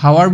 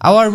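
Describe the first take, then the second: First: The word starts with an h sound. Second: The word starts with a vowel sound. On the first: The speaker calls it wrong. "হাৱাৰ বুলি আমি নপঢ়ো" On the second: The speaker calls it right. "আমি আৱাৰ বুলি পঢ়ো"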